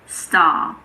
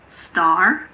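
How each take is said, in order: First: The final R sound is silent. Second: The final R sound is clearly pronounced. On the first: "but in British English, it's star" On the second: "In American English, it's star"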